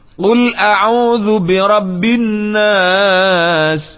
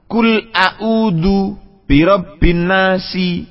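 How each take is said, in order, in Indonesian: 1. Kata terakhir diakhiri dengan konsonan. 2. Kata terakhir diakhiri dengan vokal tambahan.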